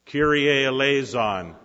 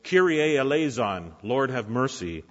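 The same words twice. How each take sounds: First: Loud, higher chanted plea; preacher leads the Kyrie eleison side; leading the call. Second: Raised, pleading cry; a mother's loud plea to Jesus; desperate cry for mercy. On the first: Shown as a demonstration. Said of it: "You start". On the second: A narrator's reading. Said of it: "this desperate woman crying out".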